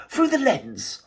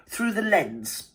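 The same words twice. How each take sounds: First: "through the lens" lifted higher, as if in quote marks; quoted buzzword. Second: "through the lens" said very slowly, each word weighted; stressed phrase. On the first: Vlogger mocking a buzzword, pitched up. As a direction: sing out "through the lens" with a high lilt. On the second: Vlogger quoting a buzzword from the book, slow and weighted. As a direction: drag out "through the lens" as a quotation. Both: Shown as a demonstration. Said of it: "to coin the operative word".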